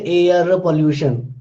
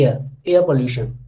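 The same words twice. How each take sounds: First: "air pollution" with the R voiced; sounded R in air. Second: "air pollution" with no R in "air", pitched lower; connected-speech silent R. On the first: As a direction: say "air" with a clear R before "pollution". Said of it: "you won't say air pollution". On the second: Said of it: "your pronunciation becomes like this only". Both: Shown as a demonstration.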